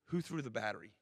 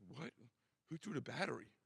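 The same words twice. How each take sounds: First: Said in the usual way. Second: Playing dumb, echoing the question back; a clueless kid parroting the question, faintly mocked; lightly voiced big kid stalling, quieter. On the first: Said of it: "I said". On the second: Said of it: "he's like".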